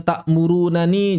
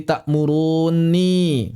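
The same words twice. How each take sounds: First: "takmurunani" in full, ending na-ni; bentuk asli. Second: Slow "takmuruni" as ta'murunni, long n; bentuk idgham. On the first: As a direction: sound both nun syllables in "takmurunani". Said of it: "jadi takmuruni". (lafalkan "takmurunani" lengkap dengan na-ni) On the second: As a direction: hold the doubled nun in "takmuruni". (lafalkan "takmuruni" perlahan, nun ganda ditahan) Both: Shown as a demonstration.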